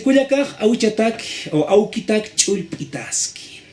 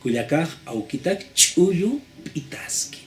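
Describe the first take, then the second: First: Slow, vowels dropped in speech, said as spoken aloud; spoken pronunciation. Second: Very slow, each word of "Kuyakaj aukitak chulpitaski" spelled out clearly; written form. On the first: Teacher showing the spoken form, slow and careful. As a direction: read the Aymara line as it is really pronounced, vowels run together. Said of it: "la parte de la pronunciación". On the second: Teacher showing the written form, very slow. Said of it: "En la escritura, ¿cómo debe ser?". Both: Shown as a demonstration.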